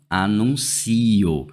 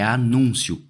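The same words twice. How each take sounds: First: "anuncio" stressed on CI, the i and o split apart. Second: "anúncio" stressed on NUN, ending in a quick diphthong; stress on the middle syllable. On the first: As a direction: lean on the CI in "anuncio", as a verb. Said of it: "e não anuncio". ("anuncio" com tônica no CI) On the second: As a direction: punch the NUN in "anúncio", gliding off the end. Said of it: "A palavra aqui é anúncio e não anuncio". ("anúncio" com tônica no NUN) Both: Shown as a demonstration.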